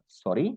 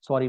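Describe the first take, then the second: First: It is said as a questioning request. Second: It is said as a plain apology. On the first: The speaker did not hear and wants it repeated. "Sorry बोल के मैं ऐसा बोला" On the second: The speaker apologizes for dropping something. "फिर उठा के मैं sorry बोल के दे दिया"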